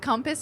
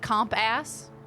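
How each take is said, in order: First: It is said as one ordinary, smooth word. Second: It is split into two parts, 'comp' and 'ass'. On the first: The speaker calls it right. "compass is pronounced the way it is" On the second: The speaker calls it wrong. "they think it's pronounced comp ass"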